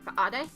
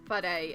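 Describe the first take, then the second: First: The H is replaced by a glottal stop. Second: The H is pronounced as a plain breathy sound. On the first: This is the Taranaki dialect pronunciation. "in the Taranaki dialect you should say whaare. You should have like a guttural stop on the H" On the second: This is the common regional pronunciation. "how most places would pronounce it"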